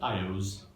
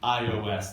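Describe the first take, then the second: First: It is said as a single word. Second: It is spelled out as three separate letters. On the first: The speaker calls it right. "Let's call it instead iOS" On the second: The speaker calls it wrong. "a terrible way to say it as a little three-letter word"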